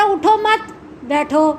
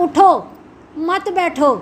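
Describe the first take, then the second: First: اٹھو مت together, pause, then بیٹھو alone; pause after مت. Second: اٹھو alone, pause, then مت بیٹھو together; pause after اٹھو. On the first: Teacher showing the completely opposite reading, pausing after مت before بیٹھو. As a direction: break after مت so it negates اٹھو. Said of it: "بالکل متضاد ہو گیا نا". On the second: Teacher contrasting two readings, stopping after اٹھو before مت بیٹھو. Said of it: "لیکن بولنے کا انداز ان میں". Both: Shown as a demonstration.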